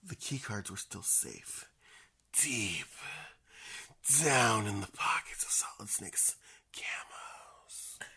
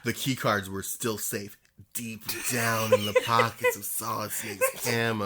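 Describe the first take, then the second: First: The line is read in a slow, sensual voice. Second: The line is read in a plain, ordinary voice.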